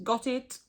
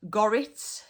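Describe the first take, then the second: First: Said in the usual way. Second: GORRIT run together with an r for the t. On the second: Shown as a demonstration. Teacher introduces the local word, GORRIT run together with r. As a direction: slur got it into GORRIT, rising. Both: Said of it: "So gorrit means".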